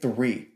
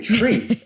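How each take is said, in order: First: The word begins with a th sound. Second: The word begins with a t sound. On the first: "saying three" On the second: "I say tree every time"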